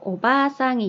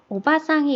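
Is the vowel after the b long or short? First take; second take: long; short. First: The vowel after the b is held long. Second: The vowel after the b is short. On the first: It means grandmother. "길게 발음이 될 거거든요" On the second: It means aunt or middle-aged woman. "아주머니나 고모, 이모 이런 거를 뜻하는 거고"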